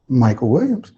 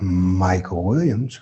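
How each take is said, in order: First: The name is said at a raised pitch. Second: The name is drawn out slowly and stretched. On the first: "I can say it higher" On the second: "or I can stretch it out"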